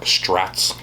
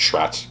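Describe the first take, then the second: First: The name begins with an 'str' sound. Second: The name begins with a 'shr' sound. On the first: The speaker calls it wrong. "a lot of people will say things like Strats. ... There's no T in the front" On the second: The speaker calls it right. "so you guys all know it's Schratz"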